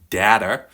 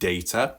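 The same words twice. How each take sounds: First: The word is said the American way. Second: The word is said in a non-American way.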